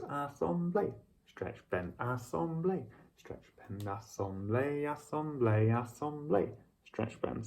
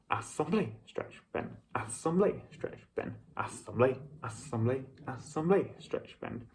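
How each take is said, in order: First: It is spoken in a waltz rhythm. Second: It is spoken in a tarantella rhythm.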